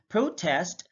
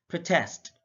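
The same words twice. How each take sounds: First: PROtest, first syllable stressed; careful demo of PROtest. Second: ProTEST, second syllable stressed; careful demo of proTEST. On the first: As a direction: hit the PRO in "protest". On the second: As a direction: hit the TEST in "protest". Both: Shown as a demonstration. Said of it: "pronounce it differently".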